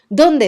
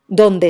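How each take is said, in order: First: The pitch rises on the word. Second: The pitch falls on the word. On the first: It is a question word carrying a written accent. "Ese dónde sube" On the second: It is a plain linking word without a written accent. "el donde esté baja"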